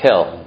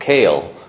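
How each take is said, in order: First: The vowel is a short 'eh' sound. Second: The vowel is a long 'ay' sound. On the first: The speaker calls it wrong. "It's not Kel" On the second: The speaker calls it right. "make sure he's Madgish the Tzere. It's Kael"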